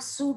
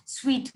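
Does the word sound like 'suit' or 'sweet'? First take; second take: suit; sweet. First: The word sounds like 'suit'. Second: The word sounds like 'sweet'. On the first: The speaker calls it wrong. "not suit" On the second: The speaker calls it right. "the good pronunciation of S U I T is suite"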